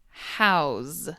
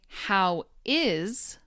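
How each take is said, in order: First: The words are contracted into one syllable. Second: Both words are said in full. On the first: The speaker calls it right. "but instead say" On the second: The speaker calls it wrong. "Most people don't say"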